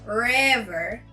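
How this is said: It is said in an American accent. "Americans will say river"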